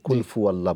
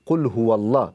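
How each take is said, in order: First: The second word begins with an f sound. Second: The second word begins with an h sound. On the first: The speaker calls it wrong. "Common একটা mistake" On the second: The speaker calls it right. "আপনি বলুন কুল হু আল্লাহ"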